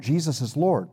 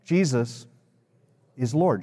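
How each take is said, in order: First: Said in the usual way. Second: Long pause after Jesus, then "is Lord"; leading group recitation. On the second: Shown as a demonstration. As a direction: give them Jesus, wait, finish evenly. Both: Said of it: "Would you say that with me?".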